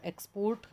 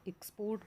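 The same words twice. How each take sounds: First: export with the weight on x; stress on first syllable. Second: export with the weight on port; weak short x, then lean on port in export; stress on second syllable. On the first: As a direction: hit the opening x of export, let port follow. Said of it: "x पे जब जोर दिया तो वो noun है". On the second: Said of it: "port पर जब हमने जोर दे के बोला". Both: Shown as a demonstration.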